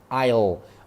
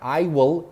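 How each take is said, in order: First: The words are contracted into one syllable. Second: Both words are said in full.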